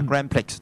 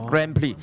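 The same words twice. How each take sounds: First: The final x sound is pronounced. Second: The final x sound is silent. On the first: The speaker calls it wrong. "Grand Prix 就錯嘅" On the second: The speaker calls it right. "Prix 個X 字係冇音嘅"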